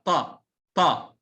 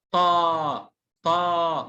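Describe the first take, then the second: First: طا with a short, quickly cut vowel; don't draw out the vowel in طا. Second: طا with a long, held "aa"; long vowel. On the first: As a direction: demonstrate طا as a short sound. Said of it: "ما أطول في حرف الطاء". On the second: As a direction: stretch the vowel in طا. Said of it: "طيب لو طويل". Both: Shown as a demonstration.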